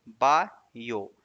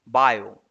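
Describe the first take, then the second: First: "बायो" slowly as two parts, बा, यो; split into syllables. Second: Said in the usual way. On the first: Shown as a demonstration. Teacher showing two syllables, "बायो" slowly split. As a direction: break "बायो" after बा. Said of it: "इसको हिंदी में लिखेंगे". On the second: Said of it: "इसको हिंदी में लिखेंगे बायो".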